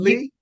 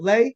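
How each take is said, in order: First: The vowel sounds like the one in 'see'. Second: The vowel sounds like the one in 'day'. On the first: "it's Lee. You're correct" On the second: "Is it Lay?"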